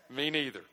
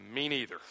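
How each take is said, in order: First: Chuckling through the words; laughing. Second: Said in the usual way. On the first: Shown as a demonstration. Preacher admitting to the church he doesn't like it either, laughing. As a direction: laugh it out as a confession. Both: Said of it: "You ready?".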